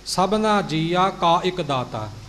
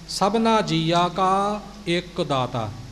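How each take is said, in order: First: It is run together in a hurried rhythm. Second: It is said in a careful, measured rhythm. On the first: The speaker calls it wrong. "ਆਪਣੀ ਚਾਲ ਵਿੱਚ ਲੱਗੇ ਹੋਏ ਬੋਲ ਜਾਂਦੇ ਹਾਂ" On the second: The speaker calls it right. "ਇਉਂ ਉਚਾਰਨ ਕਰਨਾ ਹੈ ਜੀ"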